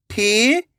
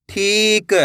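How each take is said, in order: First: "ठीक" split with a pause; long rising ठी, pause, then क in "ठीक"; letter by letter. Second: Said in the usual way. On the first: Shown as a demonstration. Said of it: "एक एक अक्षर का उच्चारण". ("ठीक" को तोड़कर, ठी... क) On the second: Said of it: "तो मिलके बन जाएगा".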